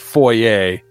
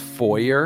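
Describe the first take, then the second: First: Foyer is pronounced with a French-style ending. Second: Foyer is pronounced with an English-style ending. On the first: This follows the word's French origin. The speaker calls it right. "I'm pretty sure it's a French word. And it's foyer" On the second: This is a regional pronunciation. The speaker calls it wrong. "he totally says foyer, and it bugged the crap out of me"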